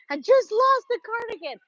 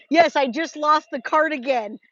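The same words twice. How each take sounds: First: Mock high repeat. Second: Said in the usual way.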